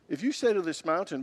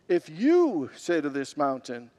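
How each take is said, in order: First: The word 'you' carries no special emphasis. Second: The word 'you' carries strong emphasis.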